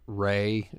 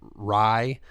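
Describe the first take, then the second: First: The vowel sounds like the word 'say'. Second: The vowel sounds like the word 'eye'. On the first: The speaker calls it wrong. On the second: The speaker calls it right.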